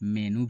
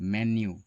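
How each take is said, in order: First: It is said without a y sound before the u. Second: It is said with a y sound before the u. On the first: The speaker calls it wrong. "ये दोनों गलत ही उच्चारण हैं।" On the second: The speaker calls it right. "इसका सही उच्चारण होता है मेन्यू।"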